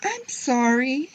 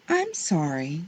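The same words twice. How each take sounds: First: Put-on high, drawn-out child's apology; upset little girl's wail, acted; crying out. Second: Said in the usual way. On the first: A narrator's reading. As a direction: cry it out slowly in a high voice. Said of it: "Harriet cried". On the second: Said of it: "said Harriet".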